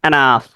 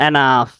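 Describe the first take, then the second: The two takes are said the same way.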